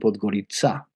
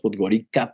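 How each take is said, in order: First: The c is said as a ts sound. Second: The c is said as a hard k sound. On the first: This is how the locals say the name. "la C es una cedilla eslava y, y ellos la pronuncian Podgorica" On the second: This is how Spanish speakers say the name. "Nosotros decimos Podgorica"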